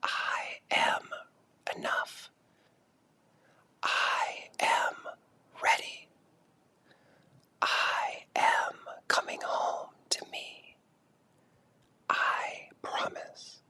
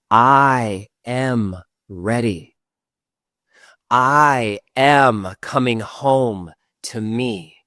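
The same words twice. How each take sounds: First: Much softer, slow whispered affirmations. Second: Slow, firm affirmation spoken out loud. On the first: Guide whispers affirmations for the group to echo. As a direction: breathe the words as a whisper. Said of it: "And now say it with a whisper". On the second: Guide leads the last round aloud, slow and firm. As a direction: say it strongly and slowly. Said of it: "Last time out loud". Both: Shown as a demonstration.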